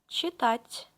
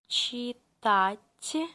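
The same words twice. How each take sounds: First: It is said faster. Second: It is said slowly.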